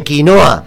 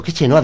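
First: "Quinoa" said firmly and a bit louder, ki-NO-a; correcting the word. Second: "chenoa" said with ch as in chica, like the singer's name; chenoa mispronounced. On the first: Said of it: "que no me entiendes". ("Quinoa" corrigiendo, con firmeza) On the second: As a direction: pronounce quinoa wrongly as "chenoa". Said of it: "Quinoa, que no me entiendes". (pronunciado mal como "chenoa") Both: Retold or imitated.

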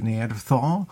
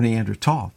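First: "Neanderthal" ending in a soft THAL; "Neanderthal" with a TH sound; TH pronunciation. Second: "Neanderthal" ending in TAWL, hard T; "Neanderthal" with a plain T sound; T pronunciation. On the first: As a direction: say "Neanderthal" with TH, nee-AN-der-THAWL. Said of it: "it's kinda like Neanderthal". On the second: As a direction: say "Neanderthal" with T for TH, nee-AN-der-TAWL. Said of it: "that's a French word too". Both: Shown as a demonstration.

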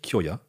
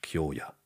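First: Kyoya with a short, quick O; wrong short-O Kyoya; short vowel. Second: Kyoya with a long, held O; long vowel. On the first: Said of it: "heißt nicht". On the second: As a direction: stretch the O in Kyoya, Kyoo-ya. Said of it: "ein Name heißt Kyoya". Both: Shown as a demonstration.

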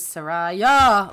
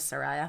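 First: Saraya with a loud, drawn-out final YA; imitated Farsi pronunciation. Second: Said in the usual way. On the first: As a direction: lean hard on the last syllable of Saraya. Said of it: "saying it in Farsi". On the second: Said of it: "I think we're good with Soraya".

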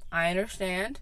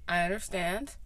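No difference in how they are said.

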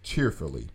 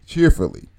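First: Said in the usual way. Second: Cheerfully said alone, higher and a touch louder with a falling end; stress on cheerfully. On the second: Shown as a demonstration. Preacher to congregation, stressing Cheerfully as a key word. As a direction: lift the word Cheerfully so it lands like a headline. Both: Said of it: "write that in all caps".

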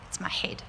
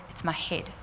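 First: Imitating the hurt boy in a whisper; son's whispered complaint, softly mimicked. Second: Said in the usual way. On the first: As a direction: breathe it out with no voice. Injured boy repeats complaint.

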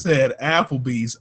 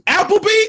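First: Said Applebee's slowly, dragging each word; mocking stress on Applebee's. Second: High, disbelieving Applebee?; incredulous squeak. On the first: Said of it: "This motherfucker". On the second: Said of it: "Ooh, Applebee's". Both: Real, not acted.

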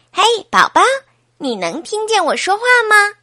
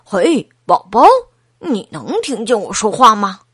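First: Put-on high, raised little-girl voice; high child's voice, asking; Laura. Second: Lightly voiced boy, pitched near the narrator's; hint of a boy calling to the baby; lightly played brother's question; Craig. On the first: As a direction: call brightly to the baby in a child's pitch. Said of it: "劳拉把头贴在妈妈的肚子上". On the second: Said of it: "克雷格把头贴在妈妈的肚子上问".

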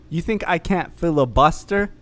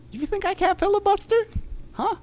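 First: Said in the usual way. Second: Squeaky high taunting voice; mock a taunt up high.

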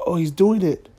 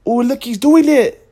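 First: Lightly voiced excited onlooker, first spotting him; half-whispered tourist nudging a friend; a hint of a gawking tourist; mock tourist gasp. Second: Higher, much louder hammed-up gawker; imitating an overexcited tourist; mock excited tourist. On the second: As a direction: point and shout like a tourist who found a rare sight. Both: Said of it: "people from Japan were like".

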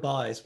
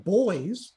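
First: "buys" with an "eye" vowel; Newfoundland word "buys", vowel as in "pie"; dialect "buys". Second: Put-on "boys" with a clear "oy" vowel; standard "boys". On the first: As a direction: say "buys" to rhyme with "eyes", low and falling. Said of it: "if I said the word". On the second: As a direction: say "boys" to rhyme with "toys", ending on a rise. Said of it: "people think I'm saying". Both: Shown as a demonstration.

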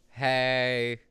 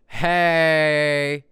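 First: Said in the usual way. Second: Bright loud hey. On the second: Pretend. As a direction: call out hey, louder. Greeting said two ways.

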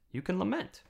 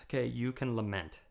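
First: "lament" lifted high on a rising tune; stressed lament. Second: Said in the usual way. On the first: Shown as a demonstration. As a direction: lift "lament" up at the end of the line.

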